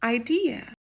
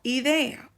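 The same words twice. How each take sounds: First: Idea said as English "eye-DEE-uh"; English long i opening idea; English pronunciation. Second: Idea said as Spanish "ee-DEH-ah"; pure Spanish vowels on idea; Spanish pronunciation. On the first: Teacher models English for learners, idea as "eye-DEE-uh". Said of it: "en inglés decimos". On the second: Teacher gives learners the Spanish word, idea as "ee-DEH-ah". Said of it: "o en inglés decimos". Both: Shown as a demonstration.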